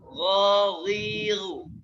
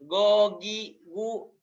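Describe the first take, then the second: First: The consonant is a rasping gh from the upper throat. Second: The consonant is a hard g, not from the throat. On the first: The speaker calls it right. "Tapi yang betul goriru" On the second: The speaker calls it wrong. "jangan gogi gu ... Itu bukan dari tenggorokan bagian atas"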